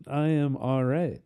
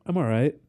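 First: Slow, drawn-out Texan drawl; McConaughey impression. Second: Quick easy Matthew McConaughey line; McConaughey impression. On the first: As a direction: stretch it lazily like McConaughey. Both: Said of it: "McConaughey impression".

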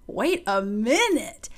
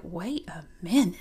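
First: Very slow, drawn-out husband voice; hammed-up slow double take with swooping pitch; husband's amazed double take. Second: Low mock man's voice; a low, stunned husband noticing his wife; husband's double take. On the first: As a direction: stretch it out slowly as a stunned, impressed husband. Imagined husband's second, bigger double take. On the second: Imagined husband's first double take.

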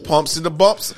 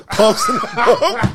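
First: Said in the usual way. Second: Slow, laughing through the words. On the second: Shown as a demonstration. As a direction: laugh it out slowly.

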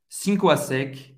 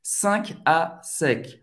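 First: "Cinco à sec" with two-syllable SEEN-koo; Portuguese pronunciation. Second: Slow "Cinq à sec" as sɛ̃k-a-SEK; French pronunciation. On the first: Teacher guessing how Brazilians say the brand, Portuguese pronunciation. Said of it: "pronuncia em português". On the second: Teacher modelling the laundry brand, French pronunciation. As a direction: give "Cinq" one nasal syllable, words separated. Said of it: "Cinco em francês". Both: Shown as a demonstration.

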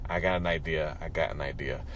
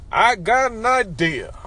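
First: Said in the usual way. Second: High, loud, drawn-out orator's proclamation; Martin Luther King. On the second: Pretend. Caller doing his preacher impression, loud soaring oratory. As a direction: stretch it out like a booming rally speech. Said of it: "That was my Martin Luther King".

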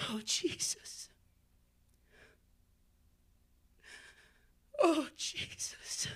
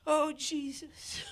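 First: Soft breathy whisper to Jesus; whispered prayer. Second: Slow prayer. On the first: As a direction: barely breathe the name in prayer. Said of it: "whispered prayer". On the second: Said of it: "slow prayer". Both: Real, not acted.

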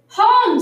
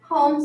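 First: High, loud exclamation of disbelief; astonished echo. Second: Said in the usual way. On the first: A narrator's reading. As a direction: repeat HOME loudly, pitched high in shock. Missus Rogers repeats it, astonished.

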